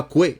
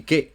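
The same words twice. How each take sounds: First: "que" said as "kwe" with a w glide; U wrongly sounded. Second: "que" said as "ke", no w glide; silent U. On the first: Teacher showing a Spanish speaker the mistake, "que" as "kwe". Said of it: "On dit pas que". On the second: Teacher giving the Spanish "que" correctly, U silent. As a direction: drop the U in "que", straight from k to e. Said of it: "on dit que". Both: Shown as a demonstration.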